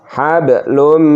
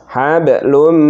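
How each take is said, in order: No difference in how they are said.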